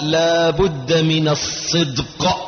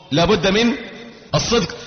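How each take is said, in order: First: Slow, chanted line; sung emphasis. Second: Said in the usual way. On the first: Shown as a demonstration. Preacher chanting the key point, slow sung phrase. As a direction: sing out لا بد من الصدق slowly.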